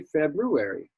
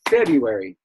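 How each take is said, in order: First: The word is said slowly and fully. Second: The word is said quickly and compressed. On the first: The speaker calls it right. "February is a little more right. It's a little more proper" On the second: The speaker calls it wrong. "fast you say February"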